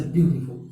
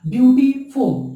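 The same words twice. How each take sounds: First: Said in the usual way. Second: "beautiful" as beauty, then a louder फुल; emphatic two-part demo of "beautiful"; split into syllables. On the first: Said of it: "तो इसमें हमको क्या करना है". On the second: Shown as a demonstration. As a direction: break "beautiful" into two clear beats. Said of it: "एक से अधिक बार निकले".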